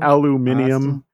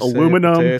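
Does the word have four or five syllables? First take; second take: five; four. First: The word is said with five syllables. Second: The word is said with four syllables. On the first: The speaker calls it wrong. "not aluminium" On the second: The speaker calls it right. "It's aluminum"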